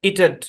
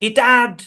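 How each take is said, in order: First: The second vowel is a light, reduced sound. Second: The second vowel is a full open 'a'. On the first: The speaker calls it right. "হালকা ইটেড, ইটেড এটা হচ্ছে original উচ্চারণ" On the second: The speaker calls it wrong. "No, এরকম না"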